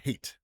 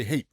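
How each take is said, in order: First: "hate" with the final T sounded; T pronounced. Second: "hate" with the final T left unreleased; dropped T. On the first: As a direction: finish "hate" on a clear T. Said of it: "Why do you all hate T's so much?". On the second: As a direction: end "hate" early, swallowing the T. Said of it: "you're just gonna end it there". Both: Shown as a demonstration.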